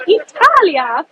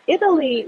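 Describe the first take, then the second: First: "Italia" said the Italian way, higher and louder; Italian pronunciation. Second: Said in the usual way. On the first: Shown as a demonstration. "Italia" in Italian style, announcing the next tour to viewers. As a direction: sing out "Italia" with Italian vowels and rolled flair. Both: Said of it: "horribly pronounced Italian words".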